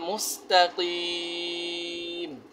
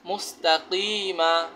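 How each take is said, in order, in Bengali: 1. শব্দটি শেষ হয়েছে ব্যঞ্জন m দিয়ে। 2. শব্দটি শেষ হয়েছে একটি স্বরবর্ণ a দিয়ে।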